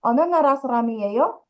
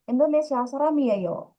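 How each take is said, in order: First: "yeyo?" lifted upward at the very end; rising question tune. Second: "yeyo." dropping down at the end; falling statement tune. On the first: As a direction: ask it, letting "yeyo?" climb at the end. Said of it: "diucapkan dengan intonasi yang naik". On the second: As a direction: state it, letting "yeyo." fall to close. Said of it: "itu di akhirnya intonasinya turun". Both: Shown as a demonstration.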